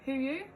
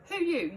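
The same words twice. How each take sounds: First: It is said low and quietly, like a growl. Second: It is said louder and faster, sounding cross.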